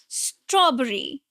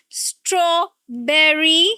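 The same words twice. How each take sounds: First: The stress falls on the straw part. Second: The stress falls on the berry part. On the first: The speaker calls it right. "it's on straw. The first syllable" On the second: The speaker calls it wrong. "This is not strawberry"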